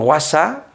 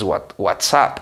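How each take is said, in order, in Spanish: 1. La palabra se pronuncia con sonidos adaptados al español. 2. La palabra se pronuncia con sus sonidos ingleses. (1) "adaptamos, si no pronunciamos bien" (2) "la palabra correcta es WhatsApp"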